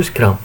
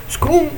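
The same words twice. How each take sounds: First: "Scrum" with an open uh vowel, "scrahm"; English-style Scrum. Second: "Scrum" with an oo vowel, "scroom"; Brazilian-style Scrum. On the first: Teacher offering the English option, "Scrum" said as "scrahm". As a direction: say "Scrum" the English way, close to "scram". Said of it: "como se fala em inglês". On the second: Teacher weighing two ways to say it, "Scrum" said as "scroom". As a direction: say "Scrum" the Brazilian way, rhyming with "room". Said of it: "a brasileira". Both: Shown as a demonstration.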